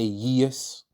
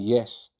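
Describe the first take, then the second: First: It is said in an odd, mocking put-on voice. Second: It is said in a plain, ordinary voice. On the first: Some women say it this way. The speaker calls it wrong. "they say yes. ... Why does your voice sound like that? For it sounds dumb" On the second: This is the usual way to say it. The speaker calls it right. "Instead of saying yes"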